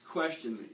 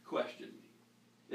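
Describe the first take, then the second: First: Said in the usual way. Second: "question me" dropped soft and slow, almost breathed; hushed urging. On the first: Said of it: "If I say something you don't agree with". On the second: Shown as a demonstration. Pastor urges listeners to challenge him, hushed and slow. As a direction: lean in and breathe the words "question me". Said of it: "If I say anything that doesn't sound right".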